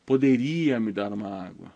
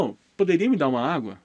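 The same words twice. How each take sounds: First: Said in the usual way. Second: Light courteous ask, a bit quick; teacher showing a customer asking the attendant nicely; polite request. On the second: Shown as a demonstration. Teacher voicing a customer politely asking a waiter. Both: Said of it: "Você fala".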